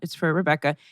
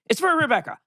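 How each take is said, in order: First: It is said in a flat, matter-of-fact tone. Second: It is said in a charged, emotional tone. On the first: He is being honest with nothing to hide. "his delivery is like, uh-huh, yeah, it's for Rebecca... tone is very, it is what it is" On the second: He would seem to be hiding something. "If he could have been like"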